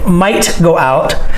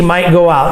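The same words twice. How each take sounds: First: The T at the end of might is pronounced. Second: The T at the end of might is dropped. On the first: "I don't say might go out" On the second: "I don't even say the T sound. The way I would say it"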